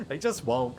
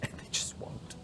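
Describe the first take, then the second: First: Said in the usual way. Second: Whispered under the breath. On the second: Real, not acted. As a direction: hiss it out in exasperation. Frustrated aside under breath.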